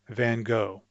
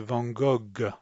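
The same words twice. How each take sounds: First: The name is said with an American English pronunciation. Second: The name is said with a French, Dutch-like pronunciation. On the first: "in English, or at least in American English, I say Van Gogh" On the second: "the French speaker is going to pronounce this name like they think it should be pronounced in Dutch"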